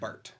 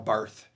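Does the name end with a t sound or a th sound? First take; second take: t sound; th sound. First: The name ends with a plain t sound. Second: The name ends with a th sound. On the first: The speaker calls it right. "But it's Karl Barth" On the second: The speaker calls it wrong. "you don't say the H at the end of his right. It looks like Karl Barth"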